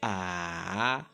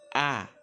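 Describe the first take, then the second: First: It is said with the third tone. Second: It is said with the fourth tone. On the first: "c'est comme si vous descendez un peu, puis vous remontez" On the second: "le quatrième et dernier ton, c'est A"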